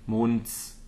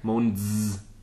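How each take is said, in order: First: The final s is voiceless, like a hiss. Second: The final s is voiced, like a buzz. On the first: The speaker calls it right. "Same after Mond" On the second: The speaker calls it wrong. "Don't voice that. Monds doesn't make any sense"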